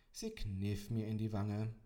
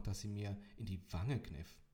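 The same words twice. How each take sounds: First: Slow, louder, weight on Sie; weary emphasis. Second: Said in the usual way. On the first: A narrator's reading. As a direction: Sie kniff, drawn out in resignation. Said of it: "Fehlte nur noch, dass sie mir in die Wange kniff".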